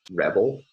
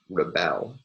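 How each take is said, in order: First: Rebel as the noun, REB-el, first syllable strong, second a light syllabic l; stress on first syllable. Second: Rebel as the verb, re-BEL, schwa first then a strong drawn-out BEL; stress on second syllable. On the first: Lecturer showing students the noun, stress on first syllable. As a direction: hit REB in rebel and let the ending fall away. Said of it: "nouns ... stress on the first syllable". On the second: Lecturer showing students the verb, stress on second syllable. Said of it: "verbs will have stress on the second syllable". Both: Shown as a demonstration.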